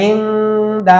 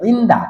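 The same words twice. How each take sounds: First: ইন্দা with the n held long in the nose; slow ইন্দা, a sustained ghunnah before দা; ikhfa pronunciation. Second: Said in the usual way. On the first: Shown as a demonstration. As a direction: hum through the n of ইন্দা. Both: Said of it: "ইন্দা হয়ে যাবে ইকফার কারণে".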